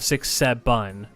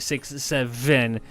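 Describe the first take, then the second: First: Seven is said without a V sound. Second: Seven is said with a clear V sound. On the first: The speaker calls it wrong. "instead of six seven" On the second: The speaker calls it right. "they can actually say six seven"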